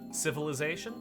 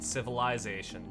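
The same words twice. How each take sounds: First: It is said the American way. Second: It is said the Canadian way. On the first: "The American way of saying these words is" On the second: "in the Canadian dialect, a lot of us say"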